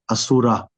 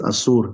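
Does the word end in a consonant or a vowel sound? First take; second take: vowel; consonant. First: The word ends in a vowel sound. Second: The word ends in a consonant sound. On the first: The speaker calls it wrong. "not Asura" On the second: The speaker calls it right. "it's Asur"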